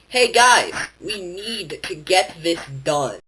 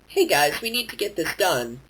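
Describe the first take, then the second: First: Certain words are said with strong emphasis. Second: It is said evenly with no word stressed. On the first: "putting emphasis on certain words or phrases" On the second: "instead of going"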